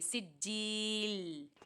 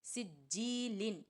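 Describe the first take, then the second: First: The word ends on a stopped l sound. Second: The word ends with an added n sound. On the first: The speaker calls it right. "जज़म दे के सांस तोड़ देंगे" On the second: The speaker calls it wrong. "ऐसे नहीं पढ़ना है"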